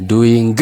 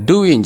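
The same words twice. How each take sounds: First: DOING with a released g, "doo-ing-guh"; sounded G. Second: DOING without its g, "doo-win"; silent G. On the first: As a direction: pronounce the final g of doing aloud. ("doing" gaa waamuun, "duwingi") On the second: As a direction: end doing on a plain n. ("doing" gaa malee, "duwin") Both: Shown as a demonstration. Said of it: "gaa kana waamtan jechuudha".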